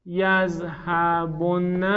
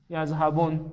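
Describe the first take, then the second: First: "یذهبن" stretched out with doubled n and final "a": yazhabonna; very slow "یذهبن", syllable by syllable to an open -na; heavy emphatic nun. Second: "یذهبن" closed on a plain n: yazhabon; lower, quicker "یذهبن", stopping on the n without a vowel; silent final nun. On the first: Teacher modelling the heavy form before silencing the n, "یذهبن" as yazhabon-na. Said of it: "خب همونو ساکن کنیم". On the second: Teacher showing students the n made silent, "یذهبن" as yazhabon. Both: Shown as a demonstration.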